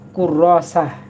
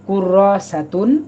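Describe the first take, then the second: First: The word ends with a stopped -ah ending. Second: The word ends with a full -atun ending. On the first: "ওয়াকফ করে" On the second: "ওয়াকফ না করে"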